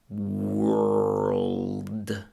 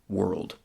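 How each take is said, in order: First: The word is said very slowly and drawn out. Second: The word is said at a normal speed. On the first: "Let's do it real slow" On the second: "Fourth and last time with normal speed"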